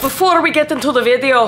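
It is said in a Scottish accent.

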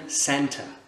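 It is said in a British accent. "En anglais britannique ça va devenir center"

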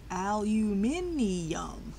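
It is said the way the listeners say it. This is how the other group says it. "That's how y'all say it"

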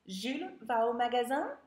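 The voice rises at the end, as a question.

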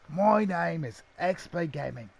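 It is said in a put-on Australian accent.

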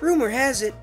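It is said in a light, whimsical way. The speaker calls it right. "he has to sound more sort of whimsical"

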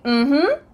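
The pitch goes from low to high. The answer is yes. "But if you say mm-hmm, it means yes"

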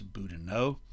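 The name is pronounced the French way. The speaker calls it wrong. "if you speak French that should be Elias Boudinot"

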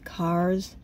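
The word is said in a non-Boston accent. "Everybody else says cars"

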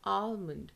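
It is American, with a hint of L.

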